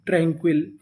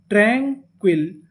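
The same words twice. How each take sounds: First: Said in the usual way. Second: "tranquil" slowly split as train-quil; syllable by syllable. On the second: Shown as a demonstration. Teacher repeats for learners, "tranquil" slow and in two pieces. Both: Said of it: "तो पूरी meaning".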